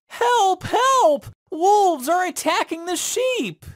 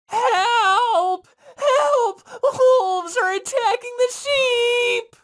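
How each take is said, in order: First: High-pitched prankster's cry for help; yelling. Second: High, tearful shout for help; crying out in despair. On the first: Shepherd boy fake-yelling to the villagers, high and pitched-up. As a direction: shout it like a fake alarm to fool everyone. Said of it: "The shepherd boy yelled". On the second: Shepherd boy crying out in despair as wolves close in. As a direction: wail it as your last hope. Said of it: "cried out in despair". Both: Acted.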